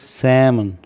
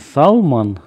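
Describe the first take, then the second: First: The word is said without any L sound. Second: The word is said with an audible L sound. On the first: The speaker calls it right. "а правильно говорить «сэмон»" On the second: The speaker calls it wrong. "правильно говорить не «салмон»"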